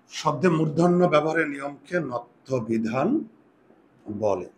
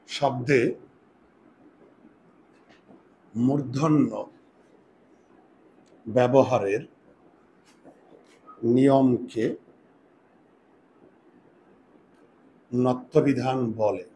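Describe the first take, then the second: First: Slowish, the whole sentence in one go; dictation read through. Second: Very slow, word by word, long pauses between; slow dictation. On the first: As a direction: read the definition once more without breaks. (একটানা ধীরে পড়ে শোনানো) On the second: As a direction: dictate each word so students can write it down. (ধীরে ধীরে শ্রুতলিখন) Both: Shown as a demonstration. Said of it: "এবার একটু সংজ্ঞা লিখো".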